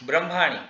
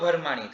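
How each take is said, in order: First: It begins with a b-r cluster. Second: It begins with breathy bh, then a vowel. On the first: "આ જે શબ્દ છે ને બ્રહ્માણી" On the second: "ભ વાપરીને બોલીએ તો ભરમાણી થાય"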